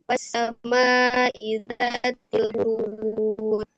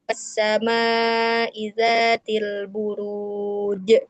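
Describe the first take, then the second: First: The final j has no bounce. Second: The final j ends with a hard jolt. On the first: "itu tidak ada pantulan ya" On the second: "ada j gitu teh di hentak gitu ya"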